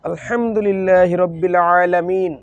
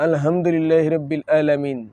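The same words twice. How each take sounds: First: The throat sounds are made deep in the throat. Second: The throat sounds are made plainly, without depth. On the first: The speaker calls it right. "এভাবে বলাটা কি জরুরি নয়? ... গলার ভিতরে তো নিতে হবে" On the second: The speaker calls it wrong. "না ... এভাবে বলা যাবে?"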